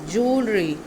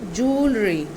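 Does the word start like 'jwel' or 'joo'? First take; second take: joo; joo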